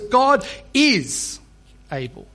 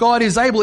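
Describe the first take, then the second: First: It is said with certainty, stressing able. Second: It is said casually, without emphasis.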